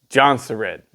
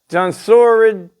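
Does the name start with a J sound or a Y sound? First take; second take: J sound; Y sound. First: The name begins with a J sound. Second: The name begins with a Y sound.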